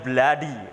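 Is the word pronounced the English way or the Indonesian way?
English. It is said with English vowel sounds. "dalam bahasa Inggris kita mengucapkannya dengan cara yang berbeda"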